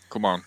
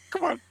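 First: It is said in a reluctant, unenthusiastic tone. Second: It is said in a cheery, eager tone.

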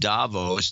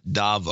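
First: The final s sound is pronounced. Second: The word ends without any s sound. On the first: The speaker calls it right. "the S in Davos is pronounced the soft S as in Davos" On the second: The speaker calls it wrong. "not Davo"

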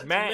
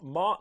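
First: The vowel is an 'a' as in 'man'. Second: The vowel is an open 'o' as in 'on'. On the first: The speaker calls it right. "It's Man" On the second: The speaker calls it wrong. "It's not Mon"

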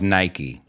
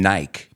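First: It is said with an American accent. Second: It is said with a British accent. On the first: "pero americanos decimos Nike" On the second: "Creo que los británicos dicen Nike"

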